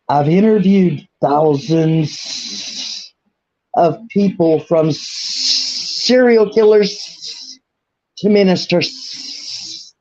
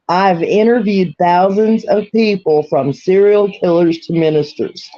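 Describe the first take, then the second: First: It is spoken in an imitated accent. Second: It is spoken in the speaker's ordinary accent. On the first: "here's the next one" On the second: "I will say that without an accent"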